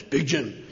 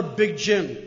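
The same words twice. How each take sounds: First: A hint of a big Italian guy, lower and softer; lightly voiced gruff Italian father saying his own name; imitating Big Jim. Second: Said in the usual way. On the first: Speaker imitates his father-in-law saying his name, lower voice. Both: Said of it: "he talked like this".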